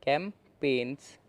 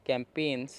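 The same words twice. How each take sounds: First: कैंपेन्स said slowly and carefully, kem-pens; slow model pronunciation. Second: Said in the usual way. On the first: Shown as a demonstration. Teacher introducing the word कैंपेन्स, saying it slowly. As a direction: draw out कैंपेन्स so each sound is clear. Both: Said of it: "उसके बाद है".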